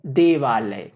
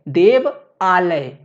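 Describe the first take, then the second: First: देवालय run together as one word, lower; joined word. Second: देव and आलय said slowly as two separate words; split into parts. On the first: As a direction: join देव and आलय into देवालय, falling lower. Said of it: "मिलकर के क्या बना दिए". ("देवालय" एक शब्द में जोड़कर, नीचे सुर में) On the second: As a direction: break it after देव, then say आलय. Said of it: "देव plus आलय मिलकर". ("देव" और "आलय" अलग-अलग, धीरे) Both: Shown as a demonstration.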